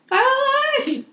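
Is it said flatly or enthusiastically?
enthusiastically. It is said with more enthusiasm.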